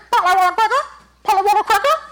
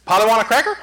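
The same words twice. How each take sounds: First: High, squawky parrot voice. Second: Said in the usual way. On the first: Acted. Parrot repeating its trainer's words, in a high bird voice. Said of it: "train a parrot to talk right". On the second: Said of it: "you can train a parrot to talk".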